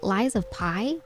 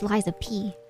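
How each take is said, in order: First: The last word sounds like 'pie'. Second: The last word sounds like 'pee'. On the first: The speaker calls it wrong. "my brain keeps wanting to say like Lies of Pi" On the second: The speaker calls it right. "but it's Lies of P"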